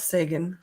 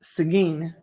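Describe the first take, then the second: First: It uses the hockey player's name pronunciation. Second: It uses the local Texas town pronunciation. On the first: This is how the hockey player's name is said. "Although I want to call it Sagan" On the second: This is how locals say the town's name. "Here in Texas, this town is pronounced Seguin"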